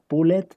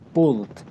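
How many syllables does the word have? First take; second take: two; one. First: The ending is voiced, making two syllables. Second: The ending is silent, making one syllable. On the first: The speaker calls it wrong. "si usted pronuncia pulled, ... la cagó" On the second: The speaker calls it right. "recuerden que la E no suena"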